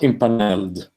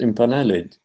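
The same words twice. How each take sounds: First: The final -ed is not sounded as a syllable. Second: The final -ed is sounded as its own syllable. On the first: The speaker calls it wrong. "not impaneled" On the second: The speaker calls it right. "So the final uh, syllable needs to be pronounced"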